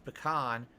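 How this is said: It is pronounced the West Coast and Midwest way. "On the West Coast and Midwest it's pecan"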